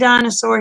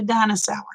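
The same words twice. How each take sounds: First: It is said in a standard accent. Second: It is said in a Boston accent.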